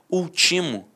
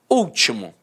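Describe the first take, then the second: First: The stress falls on the second syllable. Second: The stress falls on the first syllable. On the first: It is a form of the verb ultimar. "seria uma paroxítona terminada em O" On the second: It is the adjective meaning last. "é uma proparoxítona"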